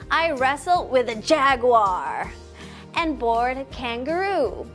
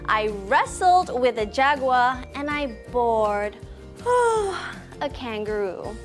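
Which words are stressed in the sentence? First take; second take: jaguar, kangaroo; wrestled, bored. First: The words jaguar and kangaroo are stressed. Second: The words wrestled and bored are stressed. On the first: The different animals are highlighted. "emphasize the word jaguar and kangaroo" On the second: The two very different actions are highlighted. "emphasize the words wrestled and bored"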